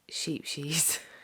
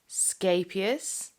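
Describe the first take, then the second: First: The name begins with an 'sh' sound. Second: The name begins with an 'sk' sound. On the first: The speaker calls it wrong. "I have always called it" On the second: The speaker calls it right. "I believe the correct pronunciation is"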